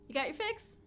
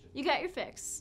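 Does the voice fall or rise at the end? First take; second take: rise; fall. First: The voice rises at the end, like a question. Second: The voice falls at the end, like a statement. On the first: It asks whether the listener got their fix. The speaker calls it wrong. "It's not a question" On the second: It tells the listener they got their fix. The speaker calls it right. "I could say it differently"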